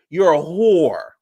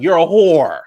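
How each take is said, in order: First: Slow, higher, stretched-out repeat; slow drawn-out insult. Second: A loud, higher insult shouted out; yelled insult. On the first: Jackie repeating the insult to Evelyn, slow and drawn out. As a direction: drag every word out. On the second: Jackie yelling at Evelyn, loud and high. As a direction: yell it at her. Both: Retold or imitated. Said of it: "She was like".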